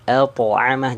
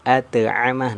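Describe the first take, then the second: First: The t is thick, with an o-like vowel. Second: The t is thin, with an e-like vowel. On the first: The speaker calls it right. "ditebalkan vokalnya o" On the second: The speaker calls it wrong. "Jangan ate"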